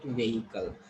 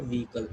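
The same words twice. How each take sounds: First: Vehicle as VAY-i-kul; the mistaken vehicle, "vay-ikal"; wrong pronunciation. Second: Vehicle with long E, VEE-kul; modelled vehicle, two syllables with "ee"; correct pronunciation. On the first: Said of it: "You should not call it vehicle". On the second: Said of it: "you should call it a vehicle". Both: Shown as a demonstration.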